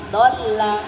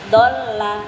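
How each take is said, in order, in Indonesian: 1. Vokal pertama pendek. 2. Vokal pertama pendek.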